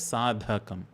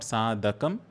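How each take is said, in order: First: The middle d sound has a strong breath. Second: The middle d sound has no breath. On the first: The speaker calls it right. "pronouncing that dha as a Mahaprana sound" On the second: The speaker calls it wrong. "It is not"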